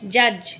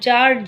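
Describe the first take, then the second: First: The word is pronounced like English 'judge'. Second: The word is given a nonstandard pronunciation. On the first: The speaker calls it right. "জাজ, JUDGE, জাজ" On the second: The speaker calls it wrong. "কথাটা জাজ নয়"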